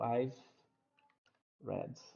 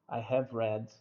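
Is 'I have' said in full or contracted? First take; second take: contracted; full. First: The words I have are contracted together. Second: The words I have are said in full.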